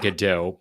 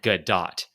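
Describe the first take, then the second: First: Godot said slowly as "guh-DOH"; silent final T. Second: Gadot said slowly as "guh-DOT"; sounded final T. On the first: Reading out the article's wrong version, Godot without a T. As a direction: end Godot on an open "oh", no T. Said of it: "is silent, the pronouncing it Godot". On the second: Reading out the other wrong version, Gadot with hard T. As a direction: close Gadot on a clear T. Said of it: "T at the end of Gadot". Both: Shown as a demonstration.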